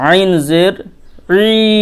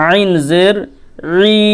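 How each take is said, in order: The two takes are said the same way.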